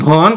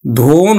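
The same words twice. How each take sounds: First: ধন with open ɔ; correct open vowel. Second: ধন stretched with closed o, ধোন; wrong o-kar pronunciation. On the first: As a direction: say ধন as dhɔn, not dhon. (অবিকৃত অ দিয়ে ধন) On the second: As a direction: draw out a round o in ধন. (ভুল ও-কারে ধোন) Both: Shown as a demonstration. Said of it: "ধন হবে না".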